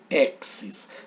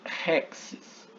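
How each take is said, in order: First: The word begins directly with a vowel. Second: The word begins with a strong R-like sound. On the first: The speaker calls it wrong. "eu não leio exes" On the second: The speaker calls it right. "mas eu leio rexes"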